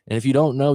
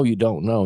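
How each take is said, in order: First: "don't" hit a little higher and louder; stress on don't. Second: "you" lifted, ending on a rise; stress on you. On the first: Coach telling clients about the unknown, stressing don't. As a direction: lean on "don't" to make the point. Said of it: "contrasted with the next line". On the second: Coach repeating the phrase, now stressing you. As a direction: land the weight on "you". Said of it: "contrasted with the line before". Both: Shown as a demonstration.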